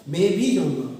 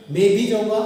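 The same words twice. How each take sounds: First: भी punched loudly, then falling away; loud भी, dropping off on जाऊंगा; stress on भी. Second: मैं hit loudly, phrase kept loud throughout; loud, emphatic delivery led by मैं; stress on मैं. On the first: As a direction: lean on भी in the middle. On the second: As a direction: punch मैं at the start. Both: Shown as a demonstration. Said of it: "स्वराघात महत्वपूर्ण था".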